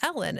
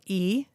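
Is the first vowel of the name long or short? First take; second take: short; long. First: The first vowel is short, as in 'bed'. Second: The first vowel is long, as in 'see'. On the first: The speaker calls it wrong. "some people will say her name is Ellen" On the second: The speaker calls it right. "it's pronounced with a long vowel sound"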